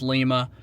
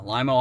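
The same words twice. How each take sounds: First: Lima said LEE-muh; mispronunciation demo. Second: Lima said LYE-muh, like lime; local pronunciation. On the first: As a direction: say Lima with an "ee", like the Peruvian capital. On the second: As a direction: rhyme the first syllable of Lima with "eye". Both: Shown as a demonstration. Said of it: "not pronounced Lima".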